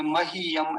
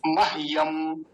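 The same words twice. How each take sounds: First: मह्यम said as "ma-hi-yam"; wrong added i. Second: मह्यम said as "mah-yam"; no vowel between h and y in मह्यम; corrected two-syllable मह्यम; half h. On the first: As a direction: slip an i after the h in मह्यम. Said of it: "ई की मात्रा लगा देते हैं". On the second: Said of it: "ऐसा नहीं". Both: Shown as a demonstration.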